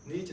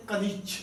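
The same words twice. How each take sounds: First: "नीच" without its first syllable "क"; wrong name pronunciation. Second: "कनीच" with "क" sounded before "नीच"; correct name pronunciation. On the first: Teacher warning pupils off a misreading, mispronounced as "नीच". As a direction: say "नीच", dropping the opening ka. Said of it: "नीच नहीं बोलना प्यारे बच्चों". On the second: Teacher answering own question on the scientist's name, "कनीच" pronounced in full. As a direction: say "कनीच" in two syllables, ka-neech. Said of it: "इसका नाम क्या है जी?". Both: Shown as a demonstration.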